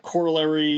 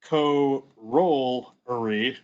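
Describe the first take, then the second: First: It is said in the common American way. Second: It is said in the British English way. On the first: The speaker calls it wrong. "corollary is the incorrect pronunciation of this" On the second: The speaker calls it right. "The correct pronunciation is corollary"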